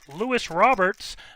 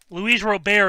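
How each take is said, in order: First: The surname ends with an added s sound. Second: The surname ends without an s sound. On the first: The speaker calls it wrong. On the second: The speaker calls it right.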